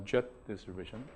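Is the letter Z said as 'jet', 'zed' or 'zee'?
jet. The letter is said as 'jet'. The speaker calls it wrong. "but not uh, jet distribution"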